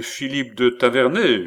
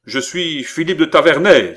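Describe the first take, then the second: First: Mildly surprised repeat of the name; composed, slightly lifted acknowledgement; measured echo. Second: Loud, high, ringing announcement of the name; proud outburst, louder and higher; exclaimed declaration. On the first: Count repeats the exclaimed name. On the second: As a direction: cry out who you are. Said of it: "s'écria le jeune homme". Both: A narrator's reading.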